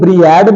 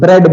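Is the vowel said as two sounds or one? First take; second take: two sounds; one sound. First: The vowel is split into two sounds, 'ee-a'. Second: The vowel is a single short 'e' sound. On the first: The speaker calls it wrong. "क्या इसे हम ब्रीएड बोलते हैं? नहीं" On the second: The speaker calls it right. "इसे हम ब्रेड बोलते हैं"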